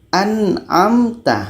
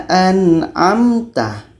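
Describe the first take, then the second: Both takes have the same delivery.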